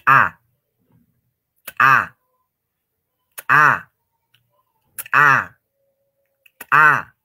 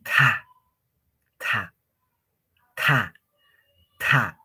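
First: Loud TA with a sharply popped T, no breath after it; exploding T. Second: TA with breath rushing out after the T; blown T. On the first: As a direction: burst the T, then a loud A. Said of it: "como si estarían haciendo reventar o explotar". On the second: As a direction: say TA as if blowing. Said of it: "Como soplando". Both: Shown as a demonstration.

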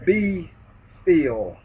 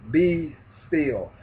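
First: Be and still split by a pause, still falling; slow, separated Be ... still; drawn-out be still. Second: Said in the usual way. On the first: Shown as a demonstration. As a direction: space out Be ... still like a command.

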